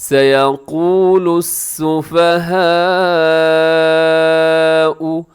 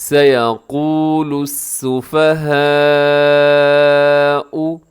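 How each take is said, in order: Both takes have the same delivery.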